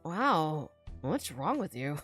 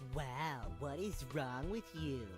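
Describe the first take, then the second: First: It is said in a normal voice. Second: It is said in a nasal voice.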